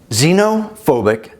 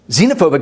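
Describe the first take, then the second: First: It is said slowly. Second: It is said fast.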